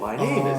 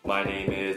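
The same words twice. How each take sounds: First: The pitch moves up and down, exaggerated. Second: The pitch stays flat and monotone. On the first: The speaker calls it right. "I think that sounds worse than hello, my name is" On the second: The speaker calls it wrong. "if you approach English as my name is da da da"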